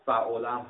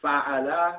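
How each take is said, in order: First: فعلم said slowly as "fa-'u-la", rounded middle vowel; "u" in middle syllable. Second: فعله said slowly as "fa-'a-la", all open a; "a" in middle syllable. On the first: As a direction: sound out فعلم with damma on the middle letter. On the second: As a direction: sound out فعله with fatha on the middle letter. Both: Shown as a demonstration. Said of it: "دو وزن داره".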